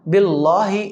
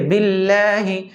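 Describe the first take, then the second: First: The L sound is heavy and full. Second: The L sound is light and thin. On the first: The speaker calls it wrong. "ये गलत है" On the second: The speaker calls it right. "सही है"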